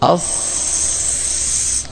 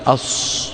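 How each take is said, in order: First: The s sound is made with neutral lips. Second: The s sound is made with rounded lips. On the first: The speaker calls it right. "مثل أس مثل أز من حيث الشفتين" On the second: The speaker calls it wrong. "وهو إعمال الشفتين"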